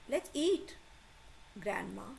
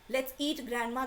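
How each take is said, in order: First: There is a pause before the last word. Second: There is no pause before the last word. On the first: Grandma is being invited to eat. The speaker calls it right. "Then pause" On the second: Grandma is the thing being eaten. The speaker calls it wrong. "there is no pause here"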